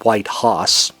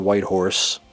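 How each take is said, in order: First: The word horse is said as hoss, no r. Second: The word horse is said with its r sound.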